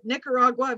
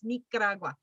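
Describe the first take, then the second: First: It is said with a flat English accent. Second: It is said with a native Spanish accent. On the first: The speaker calls it wrong. "we brutalize it" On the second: The speaker calls it right. "Very different. Very sexy"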